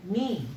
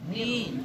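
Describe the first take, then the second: First: The syllable ends with an 'ee' vowel sound. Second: The same.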